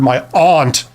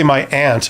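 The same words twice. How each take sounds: First: Aunt is said in a refined, posh-sounding way. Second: Aunt is said in a plain, everyday way. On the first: Others who act refined say it this way. "Those are the types of people that get their pinkies up" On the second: This is the speaker's own usual pronunciation. "I would say my aunt"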